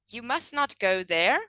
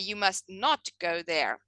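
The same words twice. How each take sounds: First: It is said evenly without special emphasis. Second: The word 'not' is strongly emphasized. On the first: "if I say you, um, you must not go there" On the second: "but if I say you must not go there, can you hear that one word is emphasized?"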